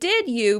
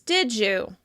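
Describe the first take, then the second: First: The d is kept before 'you'. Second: The d and y blend into a j sound.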